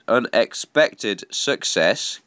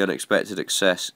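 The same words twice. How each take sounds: First: Slowly and deliberately; slow careful repeat. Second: Said in the usual way. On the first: Real, not acted. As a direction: spell it out slowly after a stumble. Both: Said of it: "God, I can't even talk".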